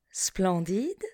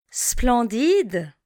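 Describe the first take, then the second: First: Splendide repeated much softer. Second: Splendide said clearly at full voice; teacher models Splendide for learners, clearly; model word. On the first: Teacher echoes Splendide quietly for the class. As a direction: softly echo Splendide. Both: Shown as a demonstration. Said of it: "Répétez après moi".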